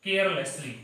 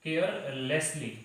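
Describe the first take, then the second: First: Said in the usual way. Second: Carelessly drawn out very slowly for students to write; slow dictation. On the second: Shown as a demonstration. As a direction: stretch each syllable of carelessly. (carelessly को धीरे-धीरे लिखवाने के अंदाज़ में)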